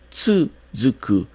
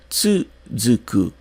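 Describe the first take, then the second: First: The first u is clearly pronounced. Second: The first u is clearly pronounced.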